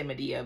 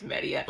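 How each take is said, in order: First: "Medea" as muh-DEE-uh; tempting pronunciation. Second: "Medea" as MEH-dee-uh; supposed correct pronunciation. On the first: Reader saying the name as she wants to, "Medea" as muh-DEE-uh. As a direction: say "Medea" with an unstressed, neutral first vowel. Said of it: "I keep wanting to say Medea". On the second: Reader correcting herself on the name, "Medea" opening on MEH. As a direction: say "Medea" with a clear "med" at the front. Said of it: "but I think it's Medea". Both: Shown as a demonstration.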